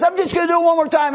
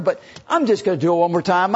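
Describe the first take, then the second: First: Much higher, louder, fast cocky boast. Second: Lightly cocky, confident; brushing off her concern. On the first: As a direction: toss it off, sure he can't miss. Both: Acted. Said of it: "very cocky".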